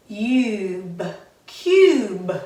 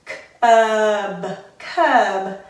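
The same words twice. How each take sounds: First: "cube" with a long u; long vowel. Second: "cub" with a short u, louder; short vowel. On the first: Teacher reads it with the class, long vowel. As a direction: sound out, then say "cube" with a "yoo" vowel. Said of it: "makes the U say its long sound". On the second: Teacher reads it with the class, short vowel. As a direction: sound out, then say "cub" with an "uh" vowel. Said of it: "that U says its short sound". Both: Shown as a demonstration.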